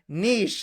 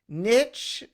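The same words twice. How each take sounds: First: The word rhymes with quiche. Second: The word rhymes with itch. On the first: "niche like quiche" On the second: "niche like Fitch"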